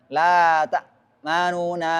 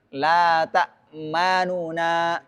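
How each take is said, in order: No difference in how they are said.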